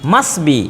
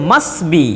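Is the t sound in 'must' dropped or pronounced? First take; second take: dropped; dropped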